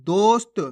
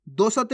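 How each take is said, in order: First: दोस्त as dost; स run straight into त in दोस्त; half-letter pronunciation. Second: दोस्त as do-sat; full-letter misreading. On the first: Teacher shows the right reading, दोस्त with half स. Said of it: "कैसे पढ़ेंगे". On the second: Teacher rejects this reading, दोस्त with full स. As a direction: put a vowel after स in दोस्त. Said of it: "नहीं". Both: Shown as a demonstration.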